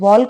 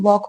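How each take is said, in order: First: The L sound is pronounced in the word. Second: The L sound is silent in the word. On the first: The speaker calls it wrong. "इसको वॉल्क नहीं पढ़ेंगे" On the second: The speaker calls it right. "वॉक में एल silent होता है"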